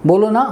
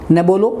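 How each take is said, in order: First: बोलो ना with a rising ना, pleading; ना lightly lifted at the end as a request; coaxing ना. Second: न bolo with न stressed as a refusal; firm prohibition. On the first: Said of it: "यदि वो क्रिया के बाद जाता है". (बोलो ना में ना ऊपर उठाकर, मनुहार से) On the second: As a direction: say न first, firmly forbidding. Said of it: "तो अपने अर्थ को रखता है". (न बोलो, मना करते हुए ज़ोर से) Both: Shown as a demonstration.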